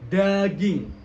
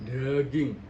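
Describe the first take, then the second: First: The word is articulated clearly and openly. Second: The word is articulated less clearly. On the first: The speaker calls it right. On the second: The speaker calls it wrong. "bukan daging"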